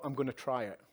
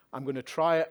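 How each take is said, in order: First: Said in the usual way. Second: "try" pushed up, a touch louder; determined repeat. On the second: Real, not acted. To the procurement audience, firmly stressing "try". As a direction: lean into "try" with resolve.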